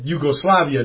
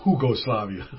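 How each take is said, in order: First: The word begins with a Y sound. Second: The word begins with an H sound. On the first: The speaker calls it right. "But we said Yugoslavia" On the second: The speaker calls it wrong. "not Hugoslavia"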